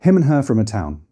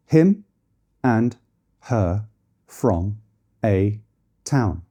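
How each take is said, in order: First: Him and her from a town said smoothly with and, from, a reduced to schwa; weak forms. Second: Him, and, her, from, a, town each said alone and separately with full vowels; one word at a time, full vowels; strong forms word by word. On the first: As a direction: run it together with weak vowels. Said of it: "change a vowel to be less noticeable". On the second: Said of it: "if it was standing alone". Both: Shown as a demonstration.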